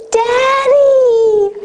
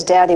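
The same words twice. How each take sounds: First: Put-on high, loud delighted little-girl call; little daughter calling across the hill to her father, high and loud; joyful child calling. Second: Put-on a dismissive teenage Daddy; fourteen-year-old daughter addressing her father, cool and dismissive; different tone of voice. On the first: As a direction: call out like a small child running to her dad. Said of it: "like this". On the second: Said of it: "with a very different tone of voice".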